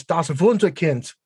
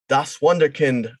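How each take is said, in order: First: Das Wunderkind said the German way, with a v sound for the W; correct German pronunciation. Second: Das Wunderkind said with an English w and an American r in Wunder; anglicized German word. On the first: Shown as a demonstration. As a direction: Wunderkind said as vun-der-kind, with a German v. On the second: Real, not acted. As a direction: Wunderkind pronounced the English way, wun-der-kind. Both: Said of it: "Say it right, please, man".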